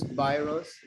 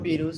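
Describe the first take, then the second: First: It is said with English vowel sounds. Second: It is said with Spanish-like vowel sounds. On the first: The speaker calls it right. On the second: The speaker calls it wrong.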